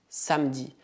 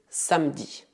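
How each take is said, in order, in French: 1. Le e du milieu est muet. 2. Le e du milieu est muet.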